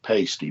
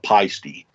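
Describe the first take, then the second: First: The first syllable sounds like 'pay'. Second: The first syllable sounds like 'pie'. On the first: This is the speaker's own way of saying it. "I pronounce it pasty" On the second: This is how many other people say it. "a lot of people call it peisty"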